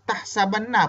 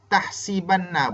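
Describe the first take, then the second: First: The vowel after the s is 'a'. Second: The vowel after the s is 'i'. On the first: "baca sa pun boleh" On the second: "nak baca sin tahsibanna boleh"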